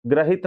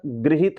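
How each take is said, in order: First: ग्रहित said "gra-hit"; wrong first vowel. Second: गृहित said "gri-hit"; correct ri sound. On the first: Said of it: "ग्रहित नहीं होता". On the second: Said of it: "री की मात्रा लगी होती है". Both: Shown as a demonstration.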